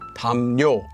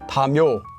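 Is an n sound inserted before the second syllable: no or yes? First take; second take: yes; no. First: The second syllable starts with an added n sound. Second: The second syllable starts with a plain y sound. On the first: The speaker calls it right. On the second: The speaker calls it wrong. "You wouldn't read this as"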